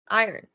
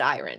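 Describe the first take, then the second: First: The R sound is very soft. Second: The R sound is clearly pronounced. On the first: The speaker calls it right. "very soft R" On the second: The speaker calls it wrong. "But you don't pronounce it iron"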